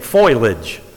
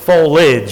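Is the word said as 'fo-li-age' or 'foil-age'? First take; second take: foil-age; fo-li-age. First: It is said like 'foil-age', two syllables. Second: It is said like 'fo-li-age', three syllables. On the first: The speaker calls it wrong. "I kept saying foliage. F-O-I-L. I put my I in the wrong place" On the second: The speaker calls it right. "It's foliage, I-A-G-E"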